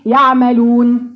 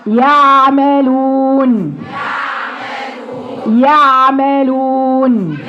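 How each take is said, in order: First: يعملون with the ayn made weakly at the front; shallow ayn. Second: يعملون very slow, the ayn squeezed in the mid throat; deep throat ayn. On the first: Teacher mimicking a student's weak ayn. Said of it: "دي عين من على الوش برضو". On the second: Teacher showing the correct ayn from its place in the throat. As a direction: chant يعملون slowly with a firm throat ayn. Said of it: "هاتيها من مخرجها". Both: Shown as a demonstration.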